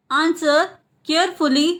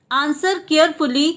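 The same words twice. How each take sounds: First: Word by word. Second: Said in the usual way. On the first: Shown as a demonstration. Teacher repeats the translation for learners, word by word. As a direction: clear pause between "Answer" and "carefully".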